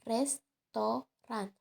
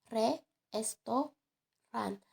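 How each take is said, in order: First: The word flows smoothly with natural stress. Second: Every syllable gets heavy, separate stress. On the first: This is how native speakers usually say it. The speaker calls it right. "dengan nada yang lebih alami seperti restoran" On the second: The speaker is trying too hard to be correct. The speaker calls it wrong. "secara hiperkorek sebagai re-esto-ran dengan penekanan yang berlebihan pada setiap suku kata"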